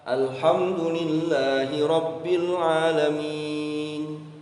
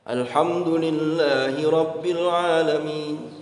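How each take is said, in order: First: The last long vowel is held four beats. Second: The last long vowel is held two beats. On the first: "Tawassut itu dua alif, empat harokat" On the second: "Itu dua harokat atau satu alif"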